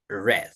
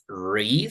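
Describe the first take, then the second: First: The vowel is short, like 'red'. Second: The vowel is long, like 'reed'. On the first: The action happened in the past. "In past, we say read" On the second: The action happens now or habitually. "In present, we read"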